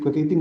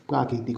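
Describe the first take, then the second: First: प्राकृतिक with short pra, louder; wrong short vowel. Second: प्राकृतिक with long praa; correct long vowel. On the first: Teacher showing the mistake, short first vowel. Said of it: "नहीं होता है". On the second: Teacher correcting the word, long first vowel. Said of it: "होता है". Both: Shown as a demonstration.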